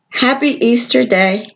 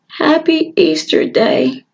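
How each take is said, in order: First: It is said a little louder, still subdued. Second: It is said very quietly, almost mumbled. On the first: The child tries again, still timid. "So I said it louder" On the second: The child is shy and nervous. "barely opened my mouth"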